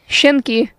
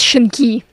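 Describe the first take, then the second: First: The stress is not on the E syllable. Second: The stress is on the E syllable. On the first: The speaker calls it wrong. "putting the emphasis on absolutely the wrong syllable" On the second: The speaker calls it right. "Emphasis on the E"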